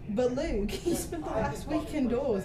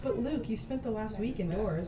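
First: It is read in an Australian accent. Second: It is read in the speaker's usual accent. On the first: The speaker calls it right. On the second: The speaker calls it wrong.

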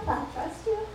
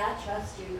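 First: The voice rises at the end like a question. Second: The voice falls at the end like a statement. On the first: The speaker doubts God. The speaker calls it wrong. "like with a question mark" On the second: The speaker is certain of trusting God. The speaker calls it right. "we need to say"

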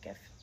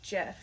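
First: The word begins with a hard G sound. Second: The word begins with a soft J sound. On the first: It matches the word graphic that it stands for. "because I'm a verified artist with Giphy, I pronounce it GIF" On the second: This is how the format's creator says it. "it's weird that he calls it GIF because it stands for graphic interchange format"

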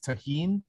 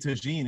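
First: The middle consonant is an H sound. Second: The middle consonant is a hard J sound. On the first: The speaker calls it right. "the J in Spanish is always pronounced like an H" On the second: The speaker calls it wrong. "I've been saying it wrong"

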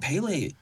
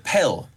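First: The name is said with two syllables. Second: The name is said with one syllable. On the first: The speaker calls it wrong. "I keep wanting to say Pele" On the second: The speaker calls it right. "I think it's Pel, not Pele"

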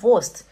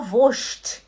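First: The s is a plain s sound. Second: The s is pronounced like sh, dialect style.

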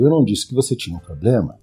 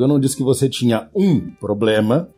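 First: The word "disse" is stressed. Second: The word "um" is stressed.

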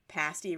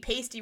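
First: The vowel sounds like the one in nasty. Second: The vowel sounds like the one in tasty. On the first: "pasty rhymes with nasty" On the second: "it should be pasty rhymes with tasty"

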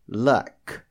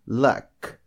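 The two takes are said the same way.

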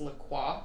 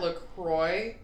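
First: It is pronounced the French way. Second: It is pronounced the American way. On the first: This is the original French word. "it is an actual French word that's La Croix" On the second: This is how the American place is named. "So the place is called that"

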